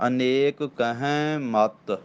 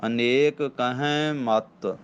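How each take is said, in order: First: ਅਨੇਕ ਕਹਿ ਮਤ slowly, holding at ਮਤ; slow ਅਨੇਕ ਕਹਿ ਮਤ, then stop; deliberate phrase ending on ਮਤ; pause on ਮਤ. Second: ਅਨੇਕ ਕਹਿ ਮਤ slowly, a clear hold after ਮਤ; slow phrase with a rest at ਮਤ; pause on ਮਤ. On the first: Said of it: "ਮਤ ਤੇ ਫੇਰ ਠਹਿਰਾਓ ਦੇਣਾ". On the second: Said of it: "ਇੱਥੇ ਮਤ ਤੇ ਠਹਿਰਾਓ ਦੇਣਾ ਫੇਰ". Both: Shown as a demonstration.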